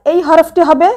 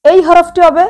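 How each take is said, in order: Both takes have the same delivery.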